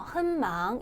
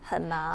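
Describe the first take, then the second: First: The first syllable has a high level tone. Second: The first syllable has a low tone, linked smoothly. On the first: The speaker calls it wrong. "삼성 한을 한망을 일성 어, 한망 이렇게 발음하는 경우가 있어요" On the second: The speaker calls it right. "한 하지 마시고 한망"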